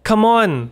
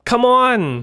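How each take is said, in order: First: It sounds warm and encouraging. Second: It sounds exasperated and fed up. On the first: You can do it. "แปลว่าสู้ๆหรือคุณทำได้นะ" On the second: Stop being like that. "อาจจะแปลว่าเอาหน้า"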